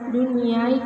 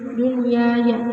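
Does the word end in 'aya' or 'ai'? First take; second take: ai; aya. First: The word ends in a short 'ai' glide. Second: The word ends with a full 'ya' syllable. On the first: The speaker calls it wrong. "tidak dibaca" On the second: The speaker calls it right.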